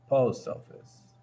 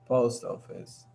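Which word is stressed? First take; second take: post; post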